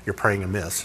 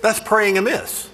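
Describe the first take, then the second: First: Low, hushed "praying amiss" in a prim voice; mock legalist. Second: "That's praying amiss" slow, high, stressing "That's"; pointed conclusion. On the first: Preacher mimicking a legalist's verdict, low and hushed. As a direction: say "amiss" low and quiet like a scold. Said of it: "Here's the thing about legalists". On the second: Shown as a demonstration. Preacher applying the term to his own prayer, slow and emphatic. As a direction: land "That's" hard and slow. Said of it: "It was a stupid prayer".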